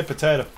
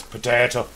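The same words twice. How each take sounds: First: Said in the usual way. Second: Mock Irish accent, a touch lower; Irish-accented demo, lower in pitch. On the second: Shown as a demonstration. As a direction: put on a light Irish accent. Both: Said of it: "do it in an Irish accent".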